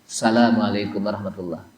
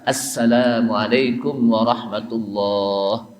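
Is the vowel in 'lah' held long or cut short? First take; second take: short; long. First: The vowel in 'lah' is cut short. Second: The vowel in 'lah' is held long. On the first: The speaker calls it wrong. "Lahnya juga pendek" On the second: The speaker calls it right. "Ada panjangnya juga"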